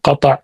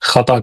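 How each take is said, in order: First: The word begins with a plain k sound. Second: The word begins with a kh sound. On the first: The speaker calls it right. "अरबी का लफ्ज है कता, काफ है" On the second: The speaker calls it wrong. "काफ को खा कहते हैं। गलती है"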